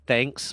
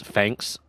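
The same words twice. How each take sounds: First: Said in the usual way. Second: THANKS said with an F, as "fanks"; London-style THANKS, starting like "fanks"; London accent imitation. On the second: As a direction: turn the TH of THANKS into an F. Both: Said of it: "I know she says".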